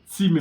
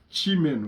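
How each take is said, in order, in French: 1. Le mot commence par un son 't'. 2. Le mot commence par un son 'ch'. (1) "au lieu de" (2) "exactement comme ils disent"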